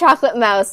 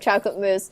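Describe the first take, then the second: First: The last word rhymes with house. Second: The last word rhymes with loose. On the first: This is how the character says it. "she says chocolate mouse" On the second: This is the usual way to say it. "instead of chocolate mousse"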